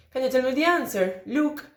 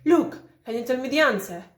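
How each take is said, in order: First: "Look" tacked on the end with a light rise, no break before it; Look as tail. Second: "Look" set apart as its own falling tone group, then the question; Look as its own phrase. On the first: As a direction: run "answer? Look" together in one tune. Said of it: "this look at the end ... is part of the tail". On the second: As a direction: pause after "Look", then ask "can you tell me the answer?". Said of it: "If they are initially vocatives, tend to have their own I P". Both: Shown as a demonstration.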